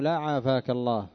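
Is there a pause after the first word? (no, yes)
no. It runs straight on with no pause. It sounds like a curse wishing the listener ill. The speaker calls it wrong. "هذا يوهم ماذا؟ يوهم الدعاء"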